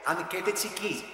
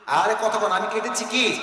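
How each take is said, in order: First: Said in the usual way. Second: Pressing repeat, voice lifted; prodding the audience. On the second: Real, not acted. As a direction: push them to answer. Prods audience to answer louder.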